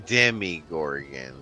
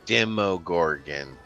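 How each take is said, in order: First: The second syllable has an 'ih' vowel. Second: The second syllable has an 'oh' vowel. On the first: The speaker calls it wrong. "not the Demigorgon" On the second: The speaker calls it right. "This is pronounced the Demogorgon"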